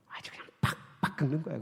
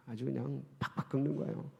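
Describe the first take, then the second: First: Hushed, breathy aside; whisper. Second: Said in the usual way. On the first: Real, not acted. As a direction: drop to a secret whisper. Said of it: "whispered aside". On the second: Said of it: "repeated at low voice".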